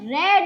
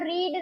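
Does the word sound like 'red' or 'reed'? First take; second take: red; reed. First: The vowel is short, as in 'red'. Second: The vowel is long, as in 'reed'. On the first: It is the past form of the verb. The speaker calls it right. "तो he has रेड आएगा" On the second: It is the base form of the verb. The speaker calls it wrong. "यहाँ पर रीड नहीं आएगा"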